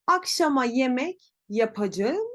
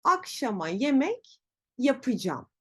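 First: Yapacağım in full, ya-pa-ja-ım; written form. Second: Yapacağım as ya-pı-jam; spoken contraction. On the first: Teacher reads quiz option A, full yapacağım. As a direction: read yapacağım as spelt. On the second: Teacher reads quiz option B, yapacağım as yapıcam. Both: Shown as a demonstration. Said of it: "hangisinin telaffuzu doğrudur?".

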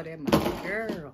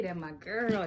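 First: Slow, loud hype for a friend; drawn-out emphasis. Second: Said in the usual way. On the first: Real, not acted. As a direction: lean on it like a proud shoutout. Repeated, drawn out louder.

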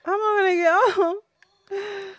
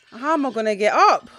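First: Higher, slow, fake-crying whine; mock wail. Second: Said in the usual way. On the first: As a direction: ham up the heartbreak like a sobbing kid. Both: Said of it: "that draw has really upset me".

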